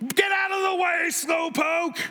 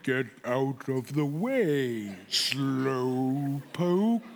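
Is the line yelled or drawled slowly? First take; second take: yelled; drawled slowly. First: The line is yelled loudly and quickly. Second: The line is drawled very slowly, like a sloth.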